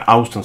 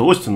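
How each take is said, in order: First: The name begins with an 'ow' glide. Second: The name begins with a plain 'o' vowel. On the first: This is how the speaker habitually said it. The speaker calls it wrong. "хотя я Аустин всегда говорил" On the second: This is thought to be the proper name. The speaker calls it right. "вроде бы правильно это Остин называется"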